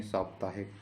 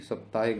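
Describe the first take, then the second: First: साप्ताहिक with a long opening saa; correct pronunciation. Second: साप्ताहिक with the first vowel cut short, sap; wrong pronunciation. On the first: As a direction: stretch सा in साप्ताहिक. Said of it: "साप्ताहिक नहीं". (साप्ताहिक में लंबा 'सा') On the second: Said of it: "नहीं". (साप्ताहिक का पहला स्वर छोटा) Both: Shown as a demonstration.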